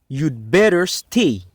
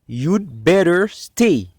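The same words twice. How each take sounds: Both takes have the same delivery.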